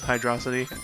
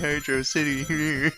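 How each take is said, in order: First: The name is run together as one word. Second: The name is split into two separate words. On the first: The speaker calls it wrong. "I know Rabbit pronounces it uh, still as Hydrocity" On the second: The speaker calls it right. "it's supposed to be Hydro City"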